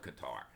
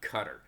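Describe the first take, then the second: First: It is said as spelled, like kah-tar. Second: It sounds just like the word cutter. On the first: The speaker calls it right. "I call it Qatar because it's spelled Qatar" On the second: The speaker calls it wrong. "not Qatar. If it was Qatar, it'd be C U T T E R"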